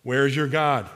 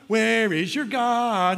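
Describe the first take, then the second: First: Said in the usual way. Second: High, drawn-out mocking jeer; taunting. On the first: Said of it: "The message is right here". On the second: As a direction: stretch it out like a playground taunt.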